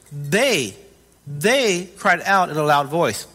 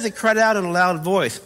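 First: "They" set apart, repeated, then drawn out; stress on THEY. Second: Said in the usual way. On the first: Shown as a demonstration. Preacher pointing out who cried out, stress on "they". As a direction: lean on "they", slowly, with a pause after the first.

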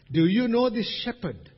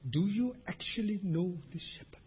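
First: Higher, raised preaching voice; emphatic question. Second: Softer, half-whispered question; hushed searching question. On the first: Preacher asks congregation about knowing the shepherd, emphatic. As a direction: put the question out firmly. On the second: Preacher presses congregation on knowing the shepherd, hushed. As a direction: drop to a hush to probe. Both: Real, not acted.

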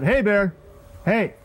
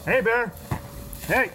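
First: Loud, high warning shout; shouting to scare off a bear. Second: Shouting to scare off a bear. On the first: Shown as a demonstration. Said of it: "shouted out". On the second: Real, not acted. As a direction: call out to warn a bear. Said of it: "as you just saw, I clapped, made some noise, shouted out".

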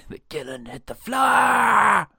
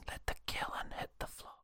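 First: Loud, higher, slow triumphant shout. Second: Breathy whispered joke, barely audible. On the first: To his co-host, topping the joke with a shout. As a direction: bellow the punchline like a chant. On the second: To his co-host, teasing the line in a whisper. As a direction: whisper it like a secret punchline. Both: Pretend.

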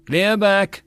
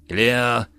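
First: High, loud call of "Clear back!"; yelled warning. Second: Said in the usual way. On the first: A narrator's reading. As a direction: bark the backblast warning. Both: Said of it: "and he yelled".

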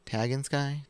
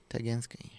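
First: Tagansky ending in "sky", like the heavens; tentative pronunciation. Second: Tagansky ending in "skee"; corrected pronunciation. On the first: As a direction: try Tagansky as TAG-an-sky, unsure. Sounding out an unfamiliar name. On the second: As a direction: settle on Tagansky as ta-GAN-skee, softer. Corrects the unfamiliar name. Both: Real, not acted.

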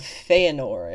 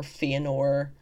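First: Feanor said as FAY-uh-nor; first pronunciation attempt. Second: Feanor said as FEE-uh-nor; alternative pronunciation. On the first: Host unsure of the elf king's name, Feanor pronounced FAY-uh-nor. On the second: Host offering another reading of the oath's name, Feanor pronounced FEE-uh-nor. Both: Shown as a demonstration. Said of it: "however that might be pronounced".

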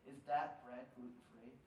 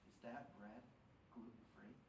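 First: Said in the usual way. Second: Hushed, much softer whisper. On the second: Retold or imitated. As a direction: lean in and whisper the question. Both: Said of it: "he whispers to me".

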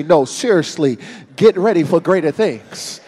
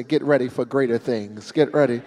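First: Louder, emphatic repeat; more insistent. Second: Said in the usual way. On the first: Shown as a demonstration. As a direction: say it like you mean it. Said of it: "touch 'em one more time and say". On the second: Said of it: "touch your neighbor one more time and say".

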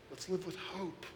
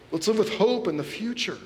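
First: Much softer, almost dropped away; soft, private promise of hope; hushed plea. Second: Higher with weight on hope; rousing call to live with hope; lifted repeat. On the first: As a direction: say it under your breath first. Repeats line, first hushed. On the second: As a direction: lift the line and land on hope. Repeats line, now raised. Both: Real, not acted.

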